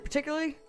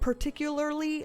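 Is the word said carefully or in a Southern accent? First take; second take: Southern; careful. First: It is said quickly in a Southern accent. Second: Every syllable is pronounced carefully and clearly. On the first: "the Southern wanted to just spit it out" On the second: "I just tried to pronounce that"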